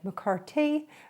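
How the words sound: The name is said in an Irish accent.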